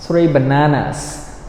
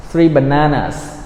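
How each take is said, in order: Both takes have the same delivery.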